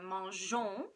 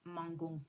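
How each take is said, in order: First: The g is said as a soft zh sound. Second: The g is said as a hard g sound. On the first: The speaker calls it right. "that E softens the pronunciation of the G" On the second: The speaker calls it wrong. "M A N G O N S is going to be pronounced mangon"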